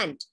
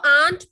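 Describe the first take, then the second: First: The vowel is a short 'a' as in cat. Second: The vowel is a long open 'ah' sound. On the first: The speaker calls it right. "This is ant" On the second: The speaker calls it wrong. "kahi isko aunt pronounce karte hain. That is really wrong"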